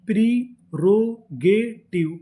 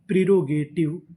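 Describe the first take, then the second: First: प्रीरोगेटिव drawn out slowly syllable by syllable; slow blended word. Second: Said in the usual way. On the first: Shown as a demonstration. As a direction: say प्रीरोगेटिव slowly, joining each part. (प्रीरोगेटिव को धीरे-धीरे जोड़कर) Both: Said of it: "तो पूरी meaning".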